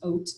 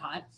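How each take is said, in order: First: The word starts with a vowel, no h. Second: The word starts with an h sound. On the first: This is the true original pronunciation. "it is truly pronounced oat" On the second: This is how Americans say it. "because we're super American, we call it hot"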